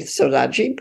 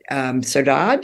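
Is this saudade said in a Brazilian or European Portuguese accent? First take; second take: Brazilian; European. First: It is said with a Brazilian Portuguese pronunciation. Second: It is said with a European Portuguese pronunciation.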